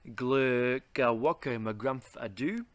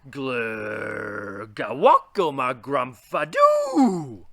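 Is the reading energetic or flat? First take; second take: flat; energetic. First: It is read in a plain, low-energy way. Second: It is read with lively emphasis and energy. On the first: The speaker calls it wrong. "Here is it being read normally" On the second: The speaker calls it right. "A bit of emphasis and energy right there makes it sound much, much better"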